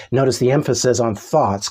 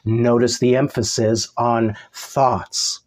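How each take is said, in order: First: Said in the usual way. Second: Slow, with "thoughts" set apart by a pause; stress on thoughts. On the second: Real, not acted. Preacher telling the church to notice a word, slow stress on "thoughts". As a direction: hold back, then land deliberately on "thoughts".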